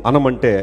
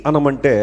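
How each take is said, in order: No difference in how they are said.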